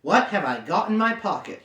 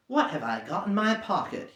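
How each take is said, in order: First: A touch louder, pressing. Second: Said in the usual way. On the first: Acted. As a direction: insist on the question. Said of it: "he said louder". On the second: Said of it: "he said aloud".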